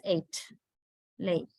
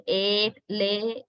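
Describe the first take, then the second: First: "eight, lay" with "eh" gliding towards ee; diphthong. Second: "Eight, lay" with one steady "eh" vowel; monophthong. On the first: Teacher showing the usual English pronunciation, gliding diphthong. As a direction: let both vowels glide in "eight, lay". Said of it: "usually it's pronounced as". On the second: Teacher showing the Sri Lankan way, pure monophthong. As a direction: hold the vowels of "Eight, lay" without any glide. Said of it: "telling it using, uh, monothong". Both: Shown as a demonstration.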